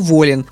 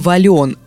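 First: The stress is on the first syllable. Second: The stress is on the second syllable. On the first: This is the current pronunciation. The speaker calls it right. "сейчас правильно только" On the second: This is the older pronunciation. The speaker calls it wrong. "раньше произносили"

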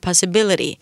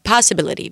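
First: The stress falls on the usual syllable. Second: The stress falls on a misplaced syllable. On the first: The speaker calls it right. "במקום possibility" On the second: The speaker calls it wrong. "של הסטרס במקומות לא נכונים. גם דוברים הודים"

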